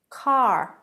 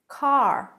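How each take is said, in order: First: The final R is clearly pronounced. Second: The final R is clearly pronounced.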